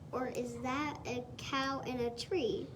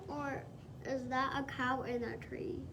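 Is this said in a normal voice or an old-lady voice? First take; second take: normal voice; old-lady voice. First: It is read in the reader's normal voice. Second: It is read in a put-on old-lady voice.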